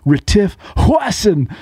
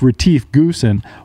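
First: The surname is pronounced the South African way. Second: The surname is pronounced the American way. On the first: The speaker calls it right. "y'all are saying it wrong. It's" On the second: The speaker calls it wrong. "you dumb Americans probably think it's"

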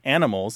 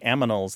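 First: The n comes before the m. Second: The m and n sounds are swapped.

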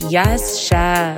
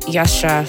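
First: It is said boldly and with gusto. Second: It is muttered quietly under the breath.

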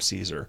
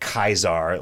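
First: The name is said the modern English way. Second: The name is said the classical Latin way. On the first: The speaker is an ordinary outsider. "the rank and file dudes in the whatever call them Caesar" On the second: The speaker belongs to the legion itself. "pronounced it Kaisar, like the way that you would have in ancient Rome"

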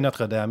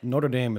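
First: It is said the French way, without a rolled R. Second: It is said the anglicized American way. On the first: The speaker calls it right. "You could say Notre Dame. You don't have to roll your R's" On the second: The speaker calls it wrong. "a complete fool's way of saying that"

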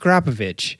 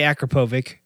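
First: The name ends with a ch sound. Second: The name does not end with a ch sound. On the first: The speaker calls it right. "the last C is the ch sound" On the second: The speaker calls it wrong. "Don't say Akrapovic"

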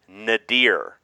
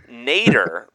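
First: It is not pronounced like the surname Nader. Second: It is pronounced like the surname Nader. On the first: "I'm going to pronounce it the way I pronounce it again" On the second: "like Ralph Nader"

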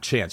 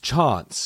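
First: The word is said in an American accent. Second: The word is said in a British accent. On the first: "not chance" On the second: "it's chance"

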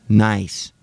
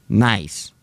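No difference in how they are said.

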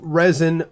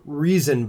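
First: The name sounds like the word resin. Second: The name sounds like the word reason. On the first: "I like resin because it's R-E-Z-I-N" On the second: "some people say it's pronounced reason"

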